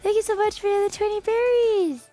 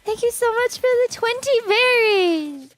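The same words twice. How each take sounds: First: It is said softly. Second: It is said loudly.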